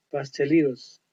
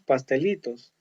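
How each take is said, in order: First: "pastelitos" with an American tapped t, like "pasteliros"; English pronunciation. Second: "pastelitos" with a clear Spanish t; Spanish pronunciation. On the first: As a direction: soften the t of "pastelitos" into an American flap. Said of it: "podemos aplicar la pronunciación en inglés". ("pastelitos" con pronunciación inglesa, t suave como r) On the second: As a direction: say "pastelitos" the Spanish way, crisp t before -os. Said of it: "en español decimos". ("pastelitos" con pronunciación española, t clara) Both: Shown as a demonstration.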